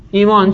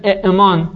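First: «ایمان» with a long ee, no catch; lightened hamza. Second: «اعمان» with a glottal catch after short e; unsimplified hamza. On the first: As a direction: say «ایمان» smoothly as eemaan. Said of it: "حرف عله متناسب با کسره یا". («ایمان» با یای کشیده، بدون همزهٔ ساکن) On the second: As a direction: say «اعمان» as e'maan, keeping both hamzas. («اعمان» با مکث همزهٔ ساکن، إِئْمان) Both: Shown as a demonstration.

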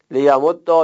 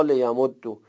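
First: لیمد دا with doubled d ending in an open "a"; fatha ending. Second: لیمد دو with doubled d ending in "u"; damma ending. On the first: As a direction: say لیمد دا as le-ya-mod-da. (لیمد دا با دال مشدد و فتحه) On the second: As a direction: say لیمد دو as le-ya-mod-du. (لیمد دو با دال مشدد و ضمه) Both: Shown as a demonstration.

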